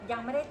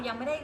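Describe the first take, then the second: No difference in how they are said.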